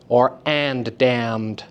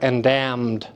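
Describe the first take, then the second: First: The consonants are split, stressing both words. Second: The two consonants are joined into one sound. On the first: "when you separate them, it moves the syllable stress onto and as well as damned" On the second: "abut them and have them share"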